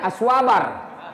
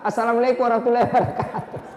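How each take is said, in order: First: The greeting is squeezed into one short word. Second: Every word of the greeting is said fully. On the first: The greeting is rushed and incomplete. The speaker calls it wrong. "Ada juga yang lebih parah, dia bilang saja" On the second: The greeting is complete and sincere. The speaker calls it right. "sempurnakan salam kita"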